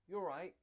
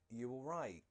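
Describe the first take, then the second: First: It is asked in a light, happy tone. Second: It is asked with a concerned up-down tune. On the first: It is a casual greeting on a normal day. "It sounds happy" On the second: The friend looks sad or something bad happened. "it does this up down thing"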